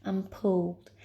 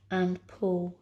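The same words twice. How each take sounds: The two takes are said the same way.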